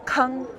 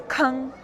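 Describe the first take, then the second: The two takes are said the same way.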